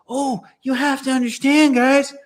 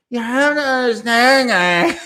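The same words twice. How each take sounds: First: High, put-on coarse Australian accent; a whining Australian accent pitched way up; Freely's Australian voice. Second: Put-on high, nasal whining Australian accent; whining Australian impression. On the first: Mocking an ex-vegan influencer for the stream, high Australian accent. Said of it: "can I really do Freely's voice". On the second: Retrying the influencer impression for viewers, high whining Australian accent. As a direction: pitch the Australian whine way up and laugh at the end. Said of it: "nasal, whining Australian accent".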